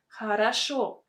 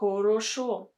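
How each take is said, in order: First: The unstressed vowels are reduced toward an A sound. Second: The unstressed vowels are pronounced as a clear O. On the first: The speaker calls it right. "We say хорошо" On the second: The speaker calls it wrong. "We don't speak like this"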